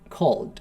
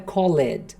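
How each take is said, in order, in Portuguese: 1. A terminação é um som de consoante simples. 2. A terminação é pronunciada como uma sílaba extra. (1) "Sem o e" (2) "Não é called"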